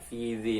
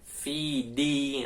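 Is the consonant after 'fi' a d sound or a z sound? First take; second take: z sound; d sound. First: The consonant after 'fi' is a z sound. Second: The consonant after 'fi' is a d sound. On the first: The speaker calls it wrong. "seringkali banyak yang salah itu Fiji" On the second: The speaker calls it right. "Yang benar itu Fidi, huruf dal"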